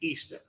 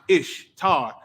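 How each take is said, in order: First: The first syllable sounds like 'ee'. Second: The first syllable sounds like 'ish'. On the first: The speaker calls it right. "the correct pronunciation is Easter" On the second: The speaker calls it wrong. "We pronounce it Ishtar"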